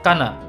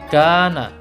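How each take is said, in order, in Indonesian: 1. Vokalnya dibaca pendek, tidak dipanjangkan. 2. Vokalnya dibaca panjang, dua harakat. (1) "tidak boleh dibaca kana" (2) "Ini dipanjangkan juga dua harakat"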